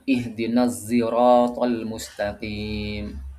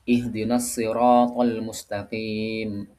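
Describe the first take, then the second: First: Sirat begins with an emphatic sound blended toward z. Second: Sirat begins with a heavy, emphatic s sound. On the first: This is another accepted reading by two reciters. "Huruf shadnya itu dicampur dengan huruf zain" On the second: This is how most reciters read it. "Kalau kita menggunakan shad"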